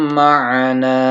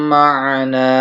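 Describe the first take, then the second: The two takes are said the same way.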